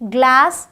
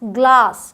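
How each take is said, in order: First: It is said with an American accent. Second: It is said with a British accent.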